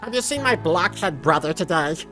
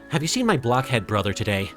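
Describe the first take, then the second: First: It is said in a put-on Serenity voice. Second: It is said in the speaker's normal voice.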